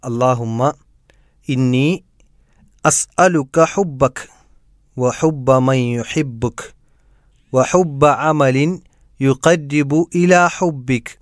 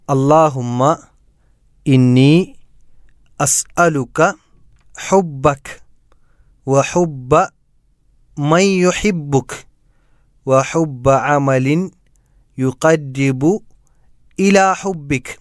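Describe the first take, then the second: First: It is said smoothly without pauses between words. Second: It is said word by word with pauses.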